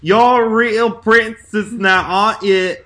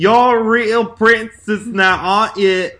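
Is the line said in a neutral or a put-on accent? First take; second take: put-on; put-on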